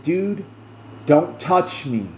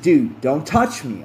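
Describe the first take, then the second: First: A touch of edge, slower, on "touch"; second warning with a little more bite; slightly sharper. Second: Said in the usual way. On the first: Retold or imitated. Warning the boyfriend again, slightly sharper. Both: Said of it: "in a slightly sharper voice".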